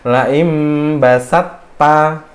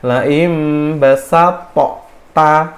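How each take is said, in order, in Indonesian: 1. Huruf t dihilangkan dan digabung ke t berikutnya. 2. Huruf t dibunyikan terpisah dengan pantulan bergema. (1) "to-nya hilang, kolkolnya hilang, dimasukkan ke huruf ta" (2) "cara cara bacanya kita pasti harus dikolkolahkannya"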